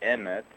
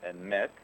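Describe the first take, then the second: First: The stress is on the first syllable. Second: The stress is on the second syllable. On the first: The speaker calls it wrong. "with the accent on the first syllable" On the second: The speaker calls it right. "with the accent on the second syllable"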